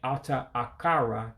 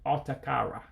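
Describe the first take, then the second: First: Both vowels are said as separate sounds. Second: The two vowels merge into a single sound. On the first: The speaker calls it wrong. "instead of saying Ata Akara" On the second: The speaker calls it right. "you would run them together. You would say Atakara"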